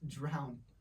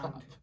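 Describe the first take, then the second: First: The word ends on the n sound. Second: The word ends with an added d sound. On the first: The speaker calls it right. "It's drown" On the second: The speaker calls it wrong. "it's not drowned"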